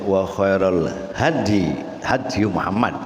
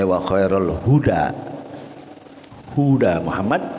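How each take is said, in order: First: The word is read hady, with a and no vowel. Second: The word is read huda, with u then a. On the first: "dibaca dengan fathah ha, sukun dal" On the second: "dibaca dengan dhammah ha, hu, wa fathid dal, da, huda"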